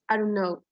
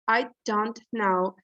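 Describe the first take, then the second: First: Some sounds of the phrase are dropped. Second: Every sound of the phrase is fully pronounced.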